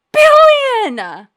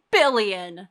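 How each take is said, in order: First: Shocked shout. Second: Said in the usual way. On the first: Real, not acted. Repeats bounty in shock.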